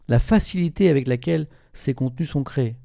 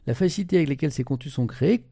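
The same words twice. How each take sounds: First: It is spoken slowly and deliberately. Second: It is spoken at a normal pace.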